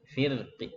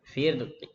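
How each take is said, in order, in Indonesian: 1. Vokal akhir hanya sebagian bersuara, sangat pendek. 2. Vokal akhir hanya sebagian bersuara, sangat pendek.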